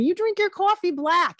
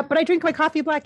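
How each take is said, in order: First: Put-on high, loud New Jersey accent; imitated New Jersey guy, punching it out; Ray Liotta. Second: Said in the usual way. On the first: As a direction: lean hard into the New Jersey vowels. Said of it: "He has a bit of an accent".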